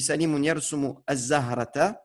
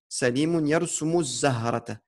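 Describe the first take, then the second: First: There is a short pause before the last word. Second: The words run together without any pause. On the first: "si on s'arrête, si on fait une petite coupure ici" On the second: "si on choisit de lire tout en entier sans coupure"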